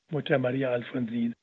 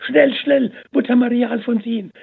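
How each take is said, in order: First: Said in the usual way. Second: Very high, loud breathless call; urgent excited call. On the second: A narrator's reading. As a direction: burst in calling with joyful urgency. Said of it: "rief die Schwester Katharina".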